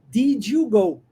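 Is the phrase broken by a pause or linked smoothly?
linked. The words are linked smoothly without pausing. The speaker calls it right. "nós vamos linkar ... Porque isso é natural"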